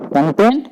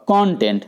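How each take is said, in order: First: content as kun-TENT, weight on the last syllable; stress on second syllable. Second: content as KON-tent, with a full open first vowel; stress on first syllable. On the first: Teacher contrasting two words, second syllable stressed. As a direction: keep the first vowel of content short and hit TENT. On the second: Teacher contrasting two words, first syllable stressed. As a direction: open up and lean on the start of content. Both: Shown as a demonstration. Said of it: "दोनों में अंतर है".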